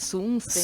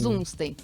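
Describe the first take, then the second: First: The name begins with a hissing s sound. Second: The name begins with a buzzing z sound. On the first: Some other people say it this way. "tem a versão com S também" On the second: This is how the family has always said it. "como eu cresci, né, assim, escutando sempre, a gente chama"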